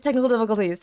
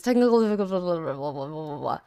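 First: Said in the usual way. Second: Low, soft mock announcer; deep announcer voice. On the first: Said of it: "repeat in put-on voice". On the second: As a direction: drop into a deep dramatic voice. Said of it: "low put-on repeat".

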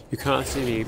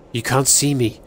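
First: "You can't see me" dropped much softer; softer hiding murmur of "You can't see me"; hushed. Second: Said in the usual way. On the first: Shown as a demonstration. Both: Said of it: "just play it slow".

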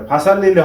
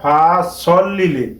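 First: "ফাসাল লিলি" with an open "a" in "sal"; wrong pronunciation. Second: "ফা সল লিলি" with rounded, heavy "sol"; correct pronunciation. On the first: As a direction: say "ফাসাল" as one word with plain s. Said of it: "ফাসাল লিলি হবে না". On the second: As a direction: set "ফা" apart, round the vowel in "সল". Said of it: "হবে". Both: Shown as a demonstration.

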